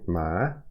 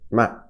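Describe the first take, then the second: First: The pitch rises from middle to high. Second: The pitch falls sharply from high to low. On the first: "two is rising ma" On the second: "four is falling, so ma"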